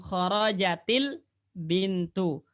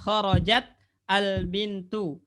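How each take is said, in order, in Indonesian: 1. Kata-katanya disambung dengan tambahan vokal i. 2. Kata-katanya diucapkan terpisah, tanpa sambungan.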